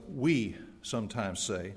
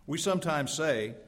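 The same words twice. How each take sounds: First: We sometimes say, with we stressed. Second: Said in the usual way. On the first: Shown as a demonstration. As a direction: put the weight on we, slowly. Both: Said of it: "emphasis on the".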